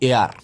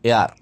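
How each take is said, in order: Both takes have the same delivery.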